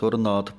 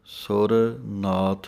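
First: The two words are run together without break. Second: The two words are said with a break. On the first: The speaker calls it wrong. "ਪੜ ਜਾਂਦੇ ਹਨ ਇਕੱਠਾ" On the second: The speaker calls it right. "ਅਲੱਗ ਅਲੱਗ ਬੋਲਣਾ ਹੈ"

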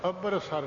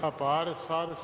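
First: The second syllable has a short vowel. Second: The second syllable has a long vowel. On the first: The speaker calls it wrong. "ਅਭਰ ਸਰ ਨਹੀਂ ਉਚਾਰਨਾ" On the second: The speaker calls it right. "ਇਸ ਤਰ੍ਹਾਂ ਬੋਲਣਾ"

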